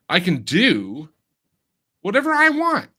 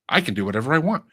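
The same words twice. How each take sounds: First: It is said with an unnatural, over-rehearsed cadence. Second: It is said in a natural, boastful way. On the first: The speaker calls it wrong. "they deliver it like" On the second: The speaker calls it right. "Like I'm bra- I'm bragging"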